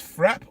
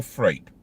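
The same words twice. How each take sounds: First: "frap" as one syllable, rhyming with trap; short, open vowel in "frap"; short-A pronunciation. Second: "frappe" as one syllable, rhyming with grape; long ay vowel in "frappe", no second syllable; long-A pronunciation. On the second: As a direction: say "frappe" as frape, silent e. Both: Shown as a demonstration. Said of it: "is it pronounced frap or frappe".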